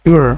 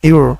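First: The two words are blended into one syllable. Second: The same.

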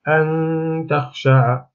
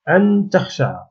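First: The n is hidden, leaving only a nasal hum. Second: The n sound is pronounced clearly and fully. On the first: The speaker calls it right. "أن النون لم يعد لها، كأنها غير موجودة" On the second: The speaker calls it wrong. "إذا قلت أن تخشع، هذا خطأ"

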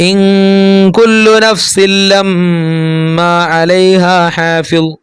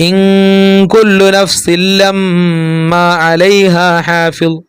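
The two takes are said the same way.

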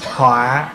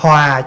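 First: The word has a heavy, low glottalized tone. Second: The word has a low falling tone. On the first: It becomes a disaster. "dấu nặng" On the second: One lives in harmony. "cho nên dấu huyền"

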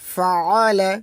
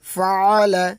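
No difference in how they are said.

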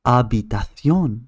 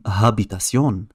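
First: The c is pronounced like a th. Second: The c is pronounced like an s. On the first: The speaker calls it right. "نقول habitación" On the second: The speaker calls it wrong. "ولا نقول habitación"

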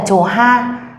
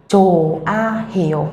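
First: An h sound is heard before the second syllable. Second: No h sound is heard before the second syllable. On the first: The speaker calls it wrong. "chúng ta sẽ không đọc là chốt hay là chồ ha" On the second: The speaker calls it right. "mà các bạn sẽ đọc là chồ a hiểu"

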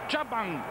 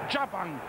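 First: The name begins with a single 'ya' sound. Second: The name begins with a single 'ya' sound.

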